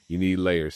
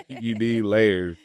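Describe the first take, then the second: First: Said in the usual way. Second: You need layers, drawn out slowly; slow emphatic advice. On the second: Shown as a demonstration. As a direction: lean on "layers", stretched slow.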